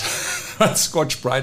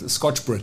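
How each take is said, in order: First: The second word has a long vowel. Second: The second word has a short vowel. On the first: The speaker calls it right. "I think, is the right pronunciation" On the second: The speaker calls it wrong. "I always said Scotch Brit"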